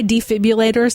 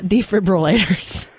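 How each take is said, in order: First: It is said with no R, like defibulators. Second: It is said with an R after the B. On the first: This is the band's own name. "Why defibrillators" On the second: This is the ordinary word. "not defibrillators?"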